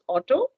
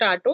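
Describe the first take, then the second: First: It has a standard English pronunciation. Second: It has a local village pronunciation. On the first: The speaker calls it right. "it's auto" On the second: The speaker calls it wrong. "It's not auto"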